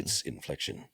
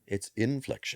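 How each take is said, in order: First: "inflection" dropped low and softer; low, softer demo of the phrase; lower inflection. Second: "inflection" pitched up high; high-pitched demo of "inflection"; higher inflection. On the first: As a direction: bring the pitch down on "inflection". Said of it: "It's just inflection". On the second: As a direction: lift the whole phrase higher. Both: Shown as a demonstration.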